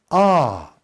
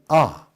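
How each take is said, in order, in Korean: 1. 모음이 한 단계 더 높이 올라갑니다. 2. 모음이 잠깐 올라갔다가 짧게 그칩니다. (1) "삼성은 아가 상성으로 올라가면서 아 하고 더 한 단계 높아가는" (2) "일성은 아가 올라가지만 아 하고 짧게 그치는 소리고"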